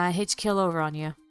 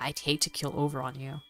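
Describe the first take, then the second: First: It is said in a half-sarcastic tone. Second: It is said in a bitter tone. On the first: The speaker calls it wrong. "at first I thought he was saying in a bit of like a half sarcastic manner" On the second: The speaker calls it right. "bitter? Okay, so maybe it's more like"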